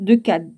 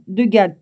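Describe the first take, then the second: First: "Gad" starting with a K sound; misread first consonant. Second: "Gad" starting with G, not K; corrected first consonant. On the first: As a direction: say "Gad" with a hard K, as "Kad". Misreads name, then corrects it. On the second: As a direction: say "Gad" with a voiced hard G. Corrects the misread name. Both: Real, not acted.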